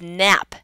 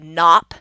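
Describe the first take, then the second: First: The vowel sounds like the one in cat. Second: The vowel sounds like the one in father. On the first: The speaker calls it right. "The same sound ah as in cat" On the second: The speaker calls it wrong. "choose the aw as in father"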